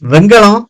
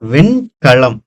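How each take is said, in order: First: It is said in the casual spoken form. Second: It is said in the careful standard form. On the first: "பேச்சு வழக்கு" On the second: "திருந்திய அமைப்பு"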